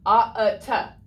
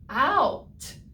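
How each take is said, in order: First: The vowel is split into ah and uh. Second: The vowel is one gliding ow sound. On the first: The speaker calls it wrong. "probably wouldn't sound right" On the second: The speaker calls it right. "that O and U works together to say ow"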